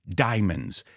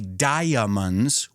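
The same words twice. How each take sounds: First: The word is said with two syllables. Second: The word is said with three syllables. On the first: The speaker calls it right. "we say diamonds. The A is silent" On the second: The speaker calls it wrong. "We don't say diamonds"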